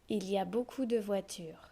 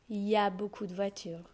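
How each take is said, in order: First: The opening il is fully pronounced. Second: The opening il is left out. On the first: This is the careful reading form. "this is how we read" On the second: This is the everyday spoken form. "We drop the il"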